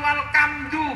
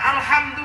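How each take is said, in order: First: The word is said in a Javanese accent. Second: The word is said in a standard accent. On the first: "karena hono coroko" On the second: "Orang Jawa"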